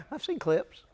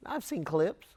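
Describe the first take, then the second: First: Laughing. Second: Said in the usual way. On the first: Real, not acted.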